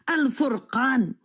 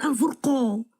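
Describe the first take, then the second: First: The last syllable has an open 'a' vowel. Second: The last syllable has a rounded 'o' vowel. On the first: The speaker calls it right. "Lalu Al-Furqan" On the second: The speaker calls it wrong.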